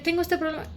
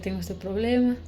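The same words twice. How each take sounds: First: It is said quickly and tensely. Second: It is said slowly, lower and with pauses. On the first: The person is anxious and has not yet calmed down. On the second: The person has calmed down after being reminded of God.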